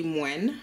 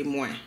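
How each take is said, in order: First: Moins with a clear nasal N sounded at the end; wrong nasal N. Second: Moins ending on the nasal vowel, no N; correct no N. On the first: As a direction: say moins as mwɛn, nasal vowel plus an audible N. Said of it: "Notice I didn't say moins". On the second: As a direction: say moins as mwɛ, no N at the end. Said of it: "I say moins". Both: Shown as a demonstration.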